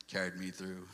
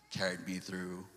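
Both takes have the same delivery.

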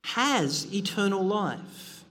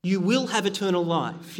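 First: "has" said slowly and leaned on, a present fact; stress on has. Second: "will" stressed as the wrong future reading. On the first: Preacher to congregation, stressing "has" slowly. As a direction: weigh the word "has" and slow the whole phrase. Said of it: "Notice that he, he doesn't say". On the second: Preacher quoting what Jesus did not say, stressing "will". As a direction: hit "will" to show the misreading. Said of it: "he doesn't say". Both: Shown as a demonstration.

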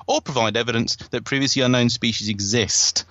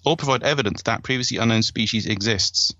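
First: "exist" without the final s sound; first take ending on a bare "exist"; wrong verb ending. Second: "exists" with the final s sound said clearly; second take with a crisp s on "exists"; corrected verb ending. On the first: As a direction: say "exist" with no s at the end. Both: Shown as a demonstration. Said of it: "Doesn't sound right to me".

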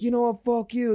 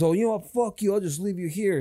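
First: Higher pitched mock fight voice; imitated angry girlfriend. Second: Higher, mock angry snap at her; retold angry outburst. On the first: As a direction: voice her yelling back at him. Acted quarrel, girlfriend voiced. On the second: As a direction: play the boyfriend telling her off. Acted quarrel outside bar.

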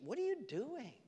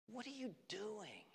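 First: High rebuke. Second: Whispered rebuke. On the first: God voiced, rebuking. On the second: Repeated, whispered. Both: Acted.

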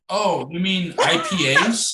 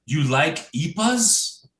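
First: "I P As" said as three separate letters; slow, higher question, spelling out "I P As"; IPAs spelled out. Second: "ipas" said as one word, not as letters. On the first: Correcting the stranger in the beer aisle, "I P As" in letters. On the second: Stranger asking about beer, "ipas" mispronounced as one word. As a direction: slowly ask it, running "ipas" together as a word. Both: Retold or imitated. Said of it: "he didn't even say I P A".

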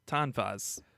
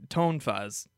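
First: Tonfas with an open "ah", TAHN-fahz; corrected pronunciation. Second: Tonfas with a long "oh", TONE-fahz; unsure pronunciation. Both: Shown as a demonstration.

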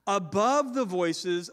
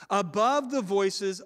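The two takes are said the same way.

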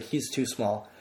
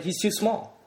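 First: Said in the usual way. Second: High, disbelieving "too small" with "too" rising; squeaky incredulous protest; incredulous claim. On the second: Retold or imitated. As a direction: insist he's too small, pitched way up. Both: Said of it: "I kept claiming it".

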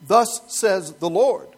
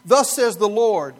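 First: Slow, weighty, loud proclamation; solemn prophetic formula. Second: Weighty and drawn out; slow, loud proclamation. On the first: Preacher shows the prophetic formula, slow and booming. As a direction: boom it out like a prophet. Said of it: "this is like a prophetic formula". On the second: Preacher sets up a grand proclamation before undercutting it. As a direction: boom it like a decree. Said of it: "it can be translated more like this". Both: Shown as a demonstration.

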